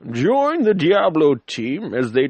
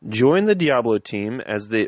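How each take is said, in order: First: It is read in a put-on old character voice. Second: It is read in a plain, natural voice.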